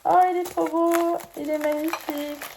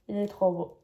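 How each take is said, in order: First: High loud gush of delight. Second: Said in the usual way. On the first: Real, not acted. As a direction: gush over the gift. Delight at unboxed ashtray.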